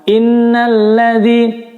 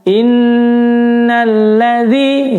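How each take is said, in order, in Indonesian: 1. Nun yang dobel dibaca pendek, tidak ditahan. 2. Nun yang dobel ditahan beberapa ketukan. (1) "kebanyakan banyak yang nggak baca ditahan" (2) "jadi harus ditahan"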